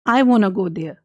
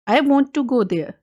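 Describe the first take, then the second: First: 'Want to' is said fast, blended into 'wanna'. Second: 'Want to' is said slowly as two full words.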